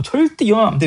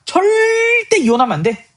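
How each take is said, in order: First: 절대 high but only briefly held; firm restatement. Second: 절대 stretched out very long and high; emphatic prohibition. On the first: Teacher restating the divorce law, firm stress on 절대. Repeats the prohibition less stretched. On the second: Jesus explaining the law on divorce, heavy drawn-out stress on 절대. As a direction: hold 절대 in a long high drawl, then finish. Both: Retold or imitated.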